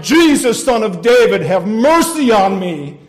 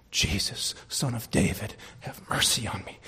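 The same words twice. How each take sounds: First: Full-force cry, slowing at the end; desperate shouting. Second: Low, softer prayer for mercy; low plea. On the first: Sinner being hauled off to judgment, still shouting for mercy. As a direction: shout the plea as loud as possible. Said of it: "still shouting". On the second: Sinner calling on Jesus despite the devil, low plea. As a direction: pray it low, phrase by phrase. Voices the beggar's prayer, subdued. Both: Acted.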